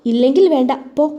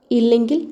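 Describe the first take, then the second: First: ഇല്ലെങ്കിൽ pushed out, falling away on വേണ്ട; sulky dismissal. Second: ഇല്ലെങ്കിൽ with a questioning rise at the end; stern challenge. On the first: Husband sulking at his wife like a child, sulky dismissal. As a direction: brush it off in a mild sulk, falling on ഇല്ലെങ്കിൽ വേണ്ട. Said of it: "nursery കുട്ടിയെപ്പോലെ കെട്ടിയവൻ പിണങ്ങി". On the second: Wife turning back to her husband, stern challenge on ഇല്ലെങ്കിൽ, rising. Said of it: "മുഖത്ത് ഗൗരവം നിറച്ചുകൊണ്ട്". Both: A narrator's reading.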